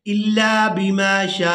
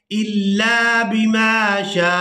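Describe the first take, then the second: First: शा ending open with no हमज़ा stop; wrong, hamza dropped. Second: शा closed by a glottal catch, recited slowly; correct, with hamza. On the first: Teacher imitating the common mistake, hamza left out. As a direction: drop the final हमज़ा on शा. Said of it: "गलती करते हैं कि इस हमज़ा को अदा ही नहीं". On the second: Teacher showing the correct hamza ending, slow recitation. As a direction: recite इल्ला बिमा शा with the final हमज़ा. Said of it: "आखिर में झटका सा महसूस होगा". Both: Shown as a demonstration.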